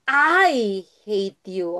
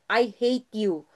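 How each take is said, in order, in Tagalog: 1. Mabigat ang diin sa salitang I. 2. Hindi espesyal na binibigyang-diin ang salitang I. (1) "ini-inflect mo yung ako talaga" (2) "pag sinabi mong"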